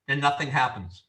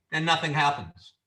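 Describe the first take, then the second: No difference in how they are said.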